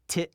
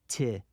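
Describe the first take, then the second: First: The word ends with an abrupt cutoff. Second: The word ends smoothly without a cutoff. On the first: It means to fix something. "The second means to repair" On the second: It names plants or vegetation. "The first word means vegetation"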